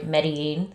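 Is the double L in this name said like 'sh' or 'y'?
y. The double L sounds like a y.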